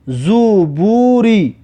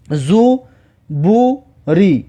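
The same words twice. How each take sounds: First: Slow, syllables joined smoothly; drawn-out model reading. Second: Slow, with clear gaps between syllables; syllable-by-syllable reading. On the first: Teacher repeats a word for learners, slow and drawn out. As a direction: stretch "زوبوری" in one slow run. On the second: Teacher shows learners the first letter, slowly splitting the word. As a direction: break "زوبوری" into three separate syllables. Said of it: "در اول کلمه حرف زا است". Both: Shown as a demonstration.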